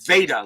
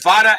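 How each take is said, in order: First: The first vowel sounds like in Vader. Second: The first vowel sounds like in Nevada. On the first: "like in Darth Vader" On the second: "as in Nevada"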